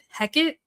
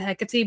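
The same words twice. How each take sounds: First: The final E is silent, not pronounced. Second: The final E is pronounced as a syllable. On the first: "they didn't pronounce the E on the end" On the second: "I think they pronounced it Hecate"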